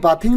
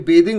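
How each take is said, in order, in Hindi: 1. पहला स्वर खुली 'ah' आवाज़ है। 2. पहला स्वर 'ay' आवाज़ है। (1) "ये बाथिंग नहीं होता है" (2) "ये बेदिंग होता है"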